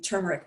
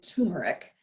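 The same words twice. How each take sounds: First: The first syllable has an R sound. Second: The first syllable has no R sound. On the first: The speaker calls it right. "it actually has an R in there" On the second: The speaker calls it wrong. "Most people say turmeric"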